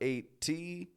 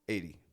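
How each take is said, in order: First: The ending is drawn out and slow. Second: The ending is short and quick. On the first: The speaker calls it wrong. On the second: The speaker calls it right. "It's very quick on the ending"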